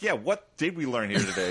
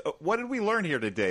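First: Mock-skeptical comeback in own voice; skeptical echo. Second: Lightly acted teacher, higher pitch; teacher quizzing kids. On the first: Viewer answering the movie teacher back, mildly skeptical. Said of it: "And I'm like". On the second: Teacher asking the kids about today's lesson, mock-teacherly. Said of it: "he's asking the kids".

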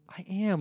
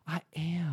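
First: Voiced "I am", pitched higher, bright with delight; happy "I am". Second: Breathless, voiceless "I am"; delighted whisper. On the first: Retelling the character's happy reply about being a Taurus, voiced and higher. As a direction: sound thrilled that someone noticed. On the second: Retold or imitated. Imitating the character whispering that she is a Taurus, breathless and thrilled. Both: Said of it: "Just her response of".

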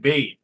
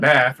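First: "bathe", rhyming with lathe; the verb "bathe", long vowel, voiced ending. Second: "bath", rhyming with math; the noun "bath", short vowel, unvoiced ending. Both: Shown as a demonstration. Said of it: "She mixes up bath".

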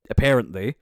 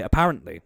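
First: "apparently" said uh-PAIR-ent-lee; stressed "pair" sound in "apparently"; East Cork pronunciation. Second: "apparently" said uh-PARR-ent-lee; short a, as in "cat", in "apparently"; own pronunciation. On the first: Host on East Cork people, "apparently" as uh-PAIR-ent-lee. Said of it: "East Cork people who say". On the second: Host insisting on their own way, "apparently" as uh-PARR-ent-lee. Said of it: "I always say". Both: Shown as a demonstration.

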